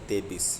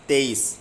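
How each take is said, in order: First: The middle has a 'b' sound. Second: The middle has no 'b' sound. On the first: The speaker calls it wrong. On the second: The speaker calls it right.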